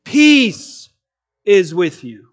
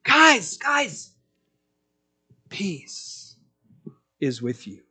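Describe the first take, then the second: First: Declaration of peace. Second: Fading to a breathless whisper on peace; tender whisper. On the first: Preacher proclaiming Jesus' declaration to the disciples, strong and ringing. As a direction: proclaim it like a victorious king. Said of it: "he is making a declaration". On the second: Jesus softly calming his frightened disciples, fading to a whisper. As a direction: hush them gently, like comforting scared friends. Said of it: "He just says". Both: Retold or imitated.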